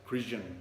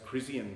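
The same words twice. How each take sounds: First: The middle consonant is a 'zh' sound. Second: The middle consonant is a plain 's' sound. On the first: This is how Brazilians pronounce the name. "like as in vision or something like that" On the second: This is how the speaker read the name himself. "I always thought read it as Crisian"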